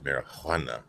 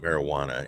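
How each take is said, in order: First: The middle consonant is an H sound. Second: The middle consonant is a J sound. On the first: The speaker calls it right. "With an H, man" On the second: The speaker calls it wrong. "it's not marijuana"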